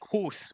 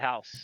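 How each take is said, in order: First: The vowel sounds like 'oo' in 'moose'. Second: The vowel sounds like 'ow' in 'cow'. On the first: This is how speakers of another variety say it. The speaker calls it wrong. "We don't say "hoose,"" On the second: This is how Americans say it. The speaker calls it right. "we say "house.""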